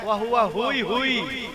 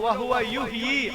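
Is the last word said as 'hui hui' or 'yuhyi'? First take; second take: hui hui; yuhyi. First: The last word is said as 'hui hui'. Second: The last word is said as 'yuhyi'. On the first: The speaker calls it wrong. "यू ही को हुई हुई कहते हैं" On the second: The speaker calls it right. "बोलो"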